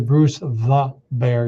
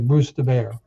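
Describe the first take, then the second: First: Each word is pronounced clearly and separately. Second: The words are slurred and run together. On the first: "you don't say" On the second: "if you are sloppy with your English pronunciation, ... You say"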